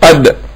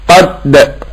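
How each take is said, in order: First: The final d is short and not doubled. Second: The final d is pressed and sounds doubled. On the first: The speaker calls it right. "إنما هنا تقول إيه قد" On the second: The speaker calls it wrong. "هما لو خطأ إيه قد / يعني زيادة الضغط"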